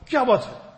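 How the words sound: It sounds stern and scolding. Reprimanding someone. "I'm reprimanding someone"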